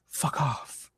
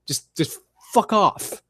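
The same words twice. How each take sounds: First: Hushed, breathy fuck off; whispered fuck off. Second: Slow, drawn-out fuck off; fed-up dismissal. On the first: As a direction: whisper it like a final dismissal. Fed up, repeats it hushed. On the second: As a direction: drag it out in disgust. Fed up with commentators. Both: Real, not acted.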